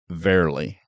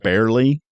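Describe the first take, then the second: First: The word begins with a V sound. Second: The word begins with a B sound. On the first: The speaker calls it wrong. "he would say verily / with a V" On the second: The speaker calls it right. "instead of saying barely"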